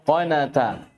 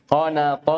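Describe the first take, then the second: First: Thin, front T in قناتا; light tā'. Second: Heavy, dark final T in قناط; emphatic ṭā'. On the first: Teacher contrasts tā' at word end, light T. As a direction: say قناتا with a plain dental T. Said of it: "فرقوا بين الطاء والتاء". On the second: Teacher shows ṭā' at word end, emphatic T. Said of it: "طاء في آخر الكلمة". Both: Shown as a demonstration.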